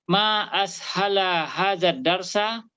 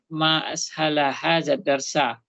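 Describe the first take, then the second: First: "Ma ashala hazad darsa" asked like a question; hesitant questioning read of "Ma ashala hazad darsa". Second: "Ma ashala hazad darsa" read with a falling exclamatory tune; "Ma ashala hazad darsa" as a statement of wonder, ending low; exclamation. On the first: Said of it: "bukan tanda tanya, tapi tanda seru". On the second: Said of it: "tapi tanda seru". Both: Shown as a demonstration.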